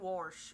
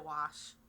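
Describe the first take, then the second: First: An r sound comes before the sh. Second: No r sound comes before the sh. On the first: This is how another regional accent says it. "We don't add that extra or" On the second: This is how the speaker's own accent says it. "We say wash"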